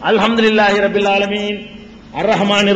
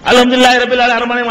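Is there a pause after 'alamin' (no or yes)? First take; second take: yes; no. First: There is a clear pause after 'alamin'. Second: It runs on with no pause after 'alamin'. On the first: Each verse is recited separately. The speaker calls it right. "எப்படி ஓதல பெருமானார் ஸல்லல்லாஹு அலைஹி வஸல்லம்?" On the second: The verses are rushed together. The speaker calls it wrong. "இப்படி இல்ல"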